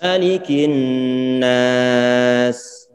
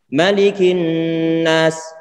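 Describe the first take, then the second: First: The final s flows on and is prolonged. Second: The final s stops abruptly without flowing. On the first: The speaker calls it right. "Tarik sedikit" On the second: The speaker calls it wrong. "nggak boleh kita ucapkan begini"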